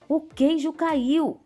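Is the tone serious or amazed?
amazed. It is said in an amazed, surprised tone.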